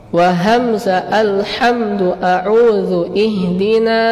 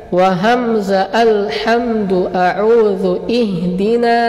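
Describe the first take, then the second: The two takes are said the same way.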